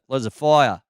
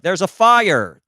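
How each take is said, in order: First: It is spoken in an Australian accent. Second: It is spoken in an American accent. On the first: The speaker kept their original accent. The speaker calls it right. "that sounds cool" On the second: The speaker dropped their own accent after moving. The speaker calls it wrong. "switching over"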